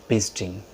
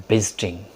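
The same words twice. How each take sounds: Both takes have the same delivery.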